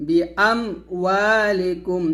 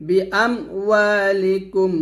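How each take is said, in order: Both takes have the same delivery.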